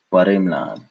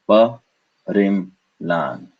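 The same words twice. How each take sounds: First: Said in the usual way. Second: "Pa, rim, lan" as separate beats; syllable by syllable. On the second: Shown as a demonstration. Teacher separating into syllables, "Pa, rim, lan" in beats. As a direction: pause after "Pa" and "rim".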